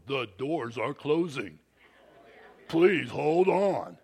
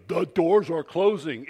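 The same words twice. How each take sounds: First: Lightly imitated cold train announcer, slow on hold on; stern announcer. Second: Louder stern announcer imitation; imitating the announcer. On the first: Airport train announcement warning riders, mildly imitated stern voice. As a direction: sound like an unfriendly automated voice. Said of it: "this guy's got an insane voice". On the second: Preacher mimicking the airport train voice, mild stern imitation. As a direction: bark the warning like the train voice. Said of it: "He goes".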